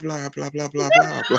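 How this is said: The voice is soft, sensual and still fast. "You was you were just soft and sensual with it"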